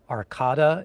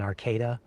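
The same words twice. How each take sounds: First: It is said differently from how locals say it. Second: It is said the way locals say it. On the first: The speaker calls it wrong. "I think I said uh, Arcada instead of" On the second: The speaker calls it right. "the correct pronunciation"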